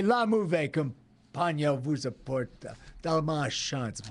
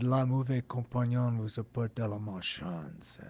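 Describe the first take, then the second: First: Slow French-Canadian accent, slightly hammed; own French-Canadian version. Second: Put-on lightly done French-Canadian accent, a bit soft. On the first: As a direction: deliver it slowly in his own French-Canadian take. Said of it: "You want my version?". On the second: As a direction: recall Pasquinel's French-Canadian accent, understated. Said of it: "that was the French-Canadian accent".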